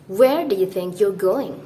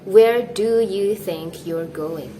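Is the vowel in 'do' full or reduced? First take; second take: reduced; full. First: The word 'do' has a short, weak 'uh' vowel. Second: The word 'do' has a full, long 'oo' vowel. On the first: "you'll probably hear native speakers say this" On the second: "Instead of"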